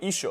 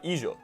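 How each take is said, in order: First: The middle consonant is a voiceless sh sound. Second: The middle consonant is a voiced y-like sound. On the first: This is how an Argentinian speaker would read it. "they'd pronounce it like somebody would have pronounced hijo in the fifteen hundreds" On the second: This is how an average Latin American speaker would read it. "they'd probably pronounce it exactly how somebody would have pronounced hijo in the fourteen hundreds"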